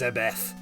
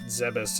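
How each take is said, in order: First: The name ends with a th sound. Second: The name ends with an s sound. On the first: The speaker calls it right. "it's a Zebeth with a T H" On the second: The speaker calls it wrong. "It's not Zebus"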